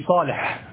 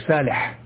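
First: The first sound is a heavy, emphatic S. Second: The first sound is a light, plain S. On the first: The speaker calls it right. "كنطق الصاد سينا في صالح" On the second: The speaker calls it wrong. "منه ما ينطق به الرعاع"

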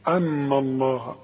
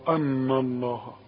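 The two takes are said the same way.

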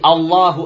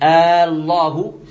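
First: The first vowel is kept short. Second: The first vowel is drawn out long. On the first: It states that God is the greatest. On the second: It sounds like asking whether God is the greatest.

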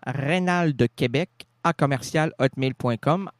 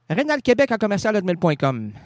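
First: The address is said more slowly and deliberately. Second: The address is said at a normal, quicker pace.

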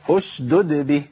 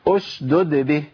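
Both takes have the same delivery.

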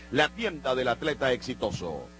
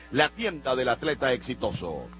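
No difference in how they are said.

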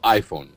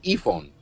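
First: The word is said with an English pronunciation. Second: The word is said with a Spanish pronunciation. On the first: "está bien pronunciado" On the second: "ustedes dirían iPhone"

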